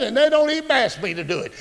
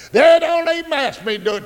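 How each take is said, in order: First: Said in the usual way. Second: Higher repeat with They stressed; emphatic preaching repeat. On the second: Acted. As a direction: push They up on the second go. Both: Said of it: "repeated for emphasis".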